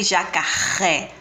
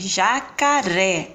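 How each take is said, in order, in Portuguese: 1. O R é um som forte. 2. O R é um som fraco. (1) "eu não falei jacaré" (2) "então é mais fraco"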